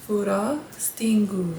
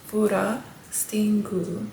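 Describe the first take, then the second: The two takes are said the same way.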